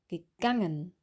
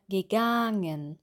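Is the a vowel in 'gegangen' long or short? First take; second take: short; long. First: The a vowel is clipped short. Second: The a vowel is drawn out long. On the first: The speaker calls it right. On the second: The speaker calls it wrong. "Auch nicht mehr"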